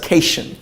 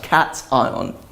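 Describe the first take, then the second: First: The ending sounds like 'shun'. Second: The ending does not sound like 'shun'. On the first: The speaker calls it wrong. "because that T I O N sounds like Sean" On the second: The speaker calls it right. "but it's pronounced cation"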